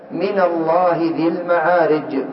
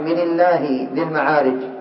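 First: The nun takes 'a' and Allah sounds heavy. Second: The nun takes 'i' and Allah sounds light. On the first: The speaker calls it right. "حركت بالفتح على خلاف الأصل" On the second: The speaker calls it wrong. "لو حركت بالكسر ... لفظ الجلالة سيرقق"

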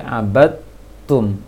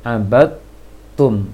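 First: The d merges straight into a doubled t. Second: The d merges straight into a doubled t.

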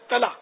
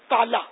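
First: The word is clipped short with sounds dropped. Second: The word is said in full with every sound. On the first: The speaker calls it wrong. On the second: The speaker calls it right.

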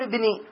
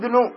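First: The word ends with an 'i' case vowel. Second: The word ends with a 'u' case vowel. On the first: The son is attached to the word before it instead. The speaker calls it wrong. "ما نقول ابني" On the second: The son is the one being named as the speaker. The speaker calls it right. "إذن يرفع، نقول قال شيخ الإسلام ابن"

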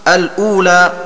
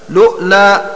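First: It opens with al, a glottal stop, then long u. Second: It opens directly with lu and a glottal stop. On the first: "كقراءة ابن عامر ومن معه" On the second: "بلام مضمومة وهمزة ساكنة وترك همزة الوصل"

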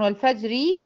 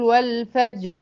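First: The final r carries a short i vowel. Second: The final r ends with no vowel. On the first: The word runs on into the next words. "هي اصلا والفجر وليال عشر ... مكسورة" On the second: The reader stops on this word. "عند الوقف اقول والفجر ... الراء دي سكنت"

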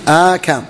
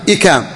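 First: It begins with a long 'aa' vowel. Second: It begins with a short 'i' vowel. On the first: "بفتح الهمزة تليها مدة" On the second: "وبكسر الهمزة بغير مد"

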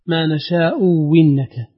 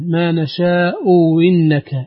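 First: The second glottal stop becomes a clear w sound. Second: The second glottal stop is softened, not fully stopped. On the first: "واو خالصة مكسورة" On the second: "تسهيل الهمزة الثانية"

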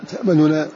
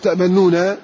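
First: The nun is said with a light vowel. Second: The nun is said with a full vowel. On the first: The speaker calls it right. "حرك حركة خفيفة" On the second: The speaker calls it wrong. "فلا تقول تأمننا"

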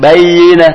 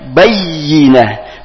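First: The y sound is short and not pressed. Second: The y sound is pressed and doubled. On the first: The speaker calls it wrong. "jangan bayinah" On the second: The speaker calls it right. "iya-nya juga bertasdid maka ditekan juga"

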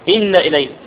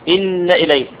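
The two takes are said the same way.

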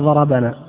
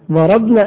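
First: The b is followed by the vowel a. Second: The b has no vowel after it. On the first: We were the ones hit. "وضربنا نحن مساكين" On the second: We did the hitting. "ضربنا نحن، ضربنا شجعان"

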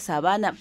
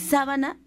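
First: The stress is on the second syllable. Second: The stress is on the first syllable. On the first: It names a grassland habitat where animals live. "porque es sin acento" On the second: It names the bed cloth used for covering oneself. "la palabra sábana lleva acento"

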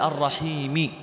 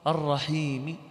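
First: The final vowel is fully pronounced. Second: The final vowel is only faintly hinted. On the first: The speaker calls it wrong. "ولا تقول الرحيم، هذه حركة كاملة" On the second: The speaker calls it right. "بصوت خفي"

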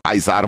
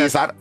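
First: It is pronounced the classical Latin way. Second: It is pronounced the medieval Latin way. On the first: This is how it was said in antiquity. "Az antik latin, az Kájzár volt" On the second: This is how it was said in the Middle Ages. "a Cézár, az pedig a középkori latin"

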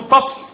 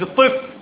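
First: The first syllable has an 'a' vowel. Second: The first syllable has an 'i' vowel. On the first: It names a kind of clay. The speaker calls it right. "فتح الطاء" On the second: It names a child. The speaker calls it wrong. "مش الطفل"

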